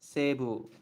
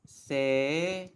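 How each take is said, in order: First: "Seibu" joined up as seh-bu with a long E; fluent "Seibu", no separate I; natural pronunciation. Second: "Seibu" broken into se... i... bu; three isolated syllables in "Seibu". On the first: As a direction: say "Seibu" in two smooth beats, see-bu as in "say-boo". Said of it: "stretch the E sound a little bit". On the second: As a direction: spell out "Seibu" slowly, pausing between se, i and bu. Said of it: "you don't really pronounce, like, Seibu". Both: Shown as a demonstration.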